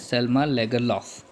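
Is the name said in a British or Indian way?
Indian. It ends with an f sound, Indian style.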